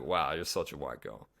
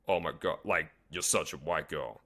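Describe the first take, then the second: First: Light, playful teasing; playful tease. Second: Mock-serious disapproval, voiced differently; serious, judging. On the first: Coach showing how to tease a girl, playful and light. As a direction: rib her gently with a smile in the voice. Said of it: "you say it, like, playful". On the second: Coach showing how not to tease a girl, serious and cold. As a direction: say it like a real judgment, not a joke. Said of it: "You don't say it serious". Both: Shown as a demonstration.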